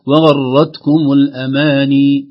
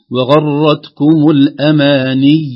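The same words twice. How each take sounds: First: Loud, slow "وغرتكم الأماني" ending in plain "nii"; wrong long ya. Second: Slow, loud "وغرتكم الأماني" ending on stressed "niyy"; doubled final ya. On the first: Sheikh shows the error, "الأماني" with undoubled long ya. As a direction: let "الأماني" end on a smooth long i. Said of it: "كأنها ياء ممدودة وليست ياء مشددة". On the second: Sheikh models correct stop, "الأماني" with tense doubled ya. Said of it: "هكذا بالياء المشددة". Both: Shown as a demonstration.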